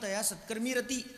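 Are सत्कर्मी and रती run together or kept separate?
run together. The last two words are run together as one. The speaker calls it wrong. "अनेक लोक तया सत्कर्मी रती असं म्हणतात. तसं नाही आहे"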